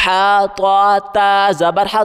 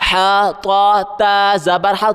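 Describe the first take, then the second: No difference in how they are said.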